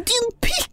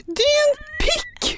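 First: Høyt, løftet rop «Din pikk!» igjen; ropt skjellsord. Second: Høyt, skingrende rop «Din pikk!» ut vinduet; ropt skjellsord. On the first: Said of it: "Ut vinduet der, og bare sånn". (gjentar ropet ut vinduet, lettere løftet) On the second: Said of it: "lener hodet ut og bare sånn". (roper ut vinduet til kjæresten, høyt og høyere) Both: Retold or imitated.

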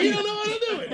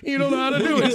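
First: Much higher squeaky taunt, softer; high mocking boss. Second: Said in the usual way. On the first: Bob sticking his head out of his office, high mocking taunt. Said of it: "Stick his head out". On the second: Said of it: "listen to him go".

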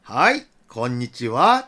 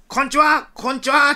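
First: Low, slow, kindly hello; gentle voice. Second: Put-on high children's call; big-voiced greeting. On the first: Acted. Officer answering children over car speaker, gentle voice. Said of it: "優しか声で". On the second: Children saluting as they greet police, big-voiced hello. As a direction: sing out hello like saluting kids. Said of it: "振って声で".

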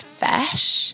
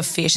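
First: "Fesh" with the Kiwi short e; Kiwi accent Fesh. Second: Said in the usual way. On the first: Retold or imitated. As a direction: say "Fesh", the i flattened to e. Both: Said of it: "got a Kiwi accent".

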